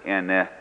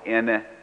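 First: The word is said on a low tone. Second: The word is said on a mid tone. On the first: It means the number four. "pronounce it ene with low tone" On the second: It means mother. "pronounce it with mid-tone"

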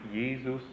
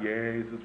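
First: The first vowel is close, almost like E. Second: The first vowel is open, with the jaw dropped. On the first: The speaker calls it right. "but Jesus? It's almost like E" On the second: The speaker calls it wrong. "not Jesus"

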